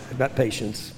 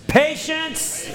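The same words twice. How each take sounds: First: Said in the usual way. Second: "patience" thrown out high and a little louder. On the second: Shown as a demonstration. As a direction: call out "patience" so the church answers loud. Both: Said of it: "You gotta say that loud".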